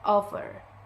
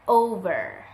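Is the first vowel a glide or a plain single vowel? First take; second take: plain vowel; glide. First: The first vowel is a plain single O. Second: The first vowel glides as a diphthong. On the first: The speaker calls it wrong. "They tend to pronounce it with offer" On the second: The speaker calls it right. "as in the word over"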